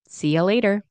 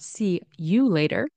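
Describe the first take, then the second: First: The word 'you' is reduced to 'ya'. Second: The word 'you' is said in full. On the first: "you might be pronounced as yeah"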